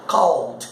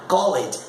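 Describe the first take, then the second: First: "called" as one syllable, cawld; correct ED ending. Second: "Called" as two syllables, call-ed; wrong ED ending. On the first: Teacher modelling it for students, one syllable. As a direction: drop the E, end "called" on d. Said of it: "Então você fala como called". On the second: Teacher showing the vowel to drop, call-ed. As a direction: sound the E in "Called". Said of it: "você não fala o E". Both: Shown as a demonstration.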